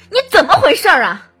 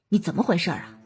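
First: The voice sounds furious, loud and forceful. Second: The voice shows only slight annoyance. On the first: The speaker is furious. "愤怒" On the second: The speaker is a little dissatisfied. "不满"

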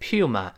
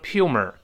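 First: The word ends without any r sound. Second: The word ends with an added r sound. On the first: The speaker calls it right. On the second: The speaker calls it wrong.

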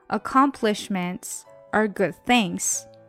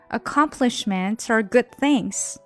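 First: The sentence is read at a slower pace. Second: The sentence is read at a faster pace.

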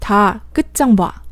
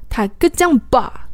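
First: The plain consonants are pronounced lax. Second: The plain consonants are pronounced tense. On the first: The speaker calls it right. "那实际上应该是这样的" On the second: The speaker calls it wrong. "如果真的把这句话里面的几个松音全部都按紧音来发的话"

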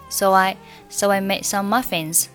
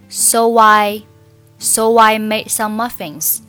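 First: So and I are said lightly and blurred together. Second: So and I are said heavily and deliberately. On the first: The speaker calls it right. "一定要很轻啊，很模糊" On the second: The speaker calls it wrong. "错误示范"

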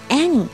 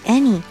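First: The first vowel is open, with the mouth wide. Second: The first vowel is narrow, with the mouth nearly closed. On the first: The speaker calls it right. "要any 嘴巴张大" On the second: The speaker calls it wrong. "嘴巴张得太小了，不好听"

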